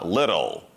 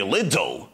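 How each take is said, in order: First: The middle T is a quick flap. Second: The middle T is a hard T. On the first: The speaker calls it right. "Ти звучит как э, русская R" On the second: The speaker calls it wrong. "Не little"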